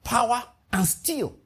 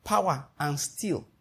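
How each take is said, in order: First: "power, and steel" slow, each word set apart; spelled out slowly. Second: "power, and steel" slow and softer, each word dropped in. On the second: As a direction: let "power, and steel" fall quietly and slowly. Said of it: "if I'm expanding into ports". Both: Shown as a demonstration.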